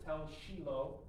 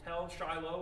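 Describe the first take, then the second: First: The name is said with a local Israeli pronunciation. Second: The name is said with an English pronunciation. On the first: "as they say it over there, they pronounce it" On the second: "this is called Tel Shiloh"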